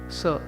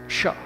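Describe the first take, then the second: First: The consonant is a plain s sound. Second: The consonant is an sh sound. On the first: The speaker calls it wrong. "that it is not" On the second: The speaker calls it right. "it is Sha"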